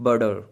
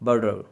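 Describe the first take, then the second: First: The middle consonant is a quick d-like flap. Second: The middle consonant is a quick d-like flap.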